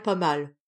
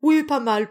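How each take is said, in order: First: Dropping into a casual throwaway pas mal; offhand. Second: Offhand. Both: A narrator's reading. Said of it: "d'un air insouciant".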